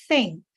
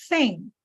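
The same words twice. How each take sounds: Both takes have the same delivery.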